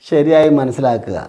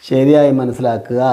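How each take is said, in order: Both takes have the same delivery.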